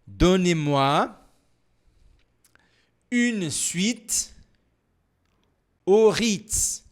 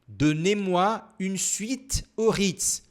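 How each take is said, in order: First: The sentence is spoken very slowly. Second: The sentence is spoken somewhat faster. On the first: "Mais devagar" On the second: "um pouco mais rápido"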